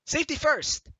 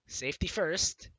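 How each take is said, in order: First: "safety" stressed with a falling end; emphatic. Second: Said in the usual way. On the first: Shown as a demonstration. Correcting the first line, emphatic "safety". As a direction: punch "safety", drop at the end. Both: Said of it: "I mean, safety first!".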